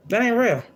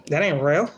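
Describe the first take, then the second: First: Much higher, insistent retort; emphatic repeat. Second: Said in the usual way. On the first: Real, not acted. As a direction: fling it up high, scornful. Rejecting prim expectations, repeats.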